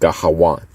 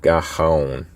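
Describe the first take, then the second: First: A clear w sound starts the final syllable. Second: No w sound is heard before the final syllable. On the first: The speaker calls it right. "So it's Gahawan" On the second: The speaker calls it wrong. "that's just wrong"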